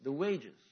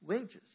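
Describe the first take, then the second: First: "The wages" said louder with a falling tune; stress on wages. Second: "Wages" pitched higher with a rising tune; stress on wages. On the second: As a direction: lift "Wages" up high as a question. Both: Shown as a demonstration. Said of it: "Let's stop right there".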